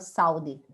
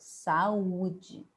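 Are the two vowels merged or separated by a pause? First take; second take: merged; separated. First: The two vowels run together without a break. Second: A small pause separates the two vowels. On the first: The speaker calls it wrong. "Eu não falo saúde" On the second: The speaker calls it right. "eu falo saúde. Eu tenho uma pausa"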